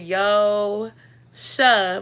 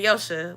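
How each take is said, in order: First: The name is said slowly, syllables apart. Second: The name is said quickly, syllables run together. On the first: The speaker calls it wrong. "but that's not how you say it" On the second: The speaker calls it right. "like fast"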